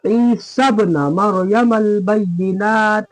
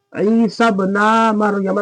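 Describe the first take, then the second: First: Slow chant with इब्न as ib-na, short ending; quick short na. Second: इब्न drawn out to ib-naa before Maryam; slow chant holding the na of इब्न long; wrongly stretched na. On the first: Teacher showing the right reading, इब्न with short na. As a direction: release the na of इब्न quickly into Maryam. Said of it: "नून को जल्दी". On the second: Teacher showing what to avoid, इब्न with long naa. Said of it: "नहीं पढ़ेंगे". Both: Shown as a demonstration.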